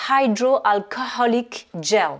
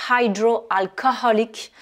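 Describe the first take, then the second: First: "hydroalcoholic" slow, "eye-dro" start with both H sounded; slow English "hydroalcoholic gel", each syllable clear; careful pronunciation. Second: "Hydroalcoholic" slow, breathing out both H sounds; slow "Hydroalcoholic" with both H audible; both H sounded. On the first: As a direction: model "hydroalcoholic gel" slowly. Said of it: "on va dire". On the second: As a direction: stress the two H in "Hydroalcoholic". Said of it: "on les prononce bien". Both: Shown as a demonstration.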